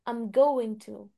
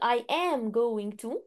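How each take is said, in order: First: 'I am' is shortened to 'I'm', said quickly. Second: 'I am' is said as two full words. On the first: "لو بتكلم بسرعة بقولها" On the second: "بدل ما اقول"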